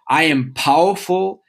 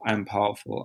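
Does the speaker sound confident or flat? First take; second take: confident; flat. First: It is said with confident, felt conviction. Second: It is said flatly, without conviction. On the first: The speaker truly feels what is said. The speaker calls it right. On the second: The words are only said, not felt. The speaker calls it wrong.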